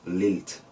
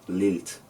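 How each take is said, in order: Both takes have the same delivery.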